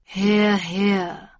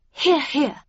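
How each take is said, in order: First: An unhurried interjection from a hidden newcomer; voice from shadows. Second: Higher-pitched Catherine Linton, chiming in; a brief approving interjection, pitched up; murmured agreement. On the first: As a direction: drop in coolly from the back of the room. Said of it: "said a voice from the shadows". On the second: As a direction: chime in with a high-voiced murmur of agreement. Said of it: "murmured Catherine Linton". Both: A narrator's reading.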